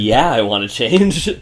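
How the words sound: It is said in a sassy, attitude-filled tone.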